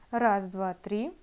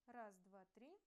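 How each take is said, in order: First: The voice is boosted to a louder level. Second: The voice is recorded at a very weak level. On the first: "усилим мой голос при помощи монтажа" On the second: "при использовании петлички сигнал получается совсем слабым"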